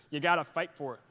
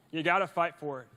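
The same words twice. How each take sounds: The two takes are said the same way.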